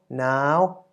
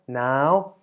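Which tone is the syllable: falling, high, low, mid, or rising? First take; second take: high; high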